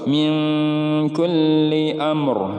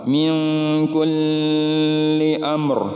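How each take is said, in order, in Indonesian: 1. Bunyi L yang bertasydid dibaca pendek. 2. Bunyi L yang bertasydid ditahan panjang. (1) "Hanya menyempurnakan huruf lamnya saja" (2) "tidak boleh ditahan lama ... ini salah"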